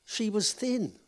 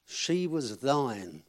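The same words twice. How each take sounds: First: "thin" with a short clipped i, no long vowel, pitched higher; she was thin. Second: Slow, drawn-out "thine" with a long "eye" and a final n; she was thine. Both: A narrator's reading. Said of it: "they'd missed off an E".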